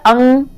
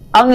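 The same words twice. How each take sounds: First: The word is spoken without nasal resonance. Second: The word is spoken with nasal resonance. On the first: "अनुस्वार जो होता है" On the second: "अनुनासिक देखिए अंग ये चांद वाला रहता है"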